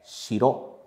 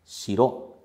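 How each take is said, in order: First: It has the pitch accent pattern of 'castle'. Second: It has the pitch accent pattern of 'castle'.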